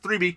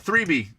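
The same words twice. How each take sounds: First: The phrase is said quickly. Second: The phrase is said at a normal pace.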